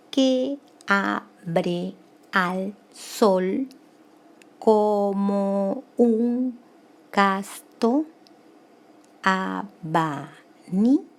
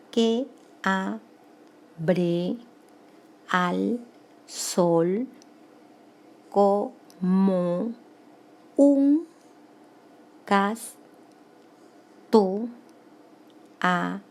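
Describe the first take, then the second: First: Slow, drawn-out syllables held evenly. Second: Very slow syllables with long silences between; deliberate syllable count. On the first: Teacher reading the verse to count it grammatically, syllable by syllable. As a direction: stretch every syllable of the verse separately. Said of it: "Vamos a contar gramaticalmente". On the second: Teacher recounting for students who missed it, very spaced-out syllables. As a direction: leave a long gap after every single syllable. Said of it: "vamos a contar nuevamente". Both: Shown as a demonstration.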